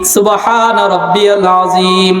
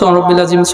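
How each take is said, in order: First: It is said fully, with every syllable pronounced. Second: It is rushed, with the middle syllables swallowed. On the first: The prayer is recited as it should be. The speaker calls it right. "রুকুতে যা হইল শব্দ কি?" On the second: The prayer is being hurried through. The speaker calls it wrong. "তাড়াতাড়ি কইলে এইটাই তো হয়"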